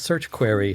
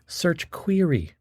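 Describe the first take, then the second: First: Query is said without a long e sound. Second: Query is said with a long e sound. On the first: The speaker calls it wrong. "not search query" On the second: The speaker calls it right. "long e, a hard e"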